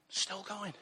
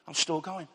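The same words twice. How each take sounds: First: Much softer, falling away on going; quiet echo. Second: Said in the usual way. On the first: Real, not acted. To the congregation, a soft reflective echo. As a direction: let it drop to a near hush, savouring it.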